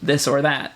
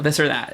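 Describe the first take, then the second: First: The word 'or' is said fully and clearly. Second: The word 'or' is shortened and run together. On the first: "the way it should be said" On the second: "so much faster, so much better"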